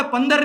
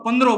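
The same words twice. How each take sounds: First: Said in the usual way. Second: પંદરો said with a clear final o; with o ending. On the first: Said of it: "પંદર નહીં બોલવાનું". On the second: Shown as a demonstration. Teacher to class, saying પંદરો with a final o. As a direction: stretch the end of પંદરો into an o. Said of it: "પંદરો બોલવાનું".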